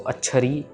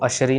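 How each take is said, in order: First: The middle sound is an aspirated 'chh'. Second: The middle sound is a soft 'sh'. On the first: The speaker calls it right. "छच्छे के साथ ही कहना है" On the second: The speaker calls it wrong. "इसको अशरी नहीं कह देना"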